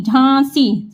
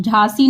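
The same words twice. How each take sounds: First: "झांसी" as jhãasi, through the nose; nasalised vowel. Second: "झांसी" as oral jhaasi; the mistaken "झांसी", no nasal aa; without nasal. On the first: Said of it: "नाक से आ रही". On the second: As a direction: say "झांसी" with a plain open aa. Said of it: "झांसी नहीं". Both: Shown as a demonstration.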